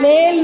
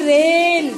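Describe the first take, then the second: First: The word begins with an L sound. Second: The word begins with an R sound. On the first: The speaker calls it wrong. "लेल नहीं" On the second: The speaker calls it right.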